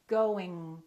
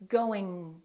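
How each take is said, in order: No difference in how they are said.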